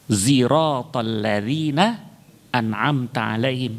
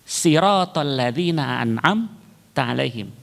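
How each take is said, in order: First: The first word begins with a z sound. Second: The first word begins with a plain s. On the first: This follows a third reading tradition. "dibaca dengan zai" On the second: This follows a second accepted reading tradition. "yang kedua dibaca dengan sin"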